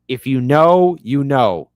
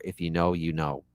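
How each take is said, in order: First: Louder punchy take of If you know, you know; emphatic repeat. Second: Said in the usual way. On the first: Shown as a demonstration. Shouting out The Wire fans, louder and emphatic. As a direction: lean in hard on know.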